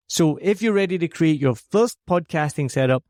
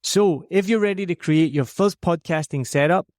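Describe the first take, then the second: No difference in how they are said.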